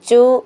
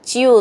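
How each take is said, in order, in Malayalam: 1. ഈ അക്ഷരം സാധാരണ ch ആണ്, glide ഇല്ല. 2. ഈ അക്ഷരത്തിൽ ch-ന് ശേഷം y-glide ഉണ്ട്. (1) "ചു എന്നല്ല" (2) "ച്യു എന്നാണ്"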